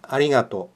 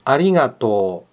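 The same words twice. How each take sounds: First: The final u is pronounced after the o. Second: The final o is held long, no u. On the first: The speaker calls it wrong. "Bukan arigato" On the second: The speaker calls it right. "Yang benar, arigato"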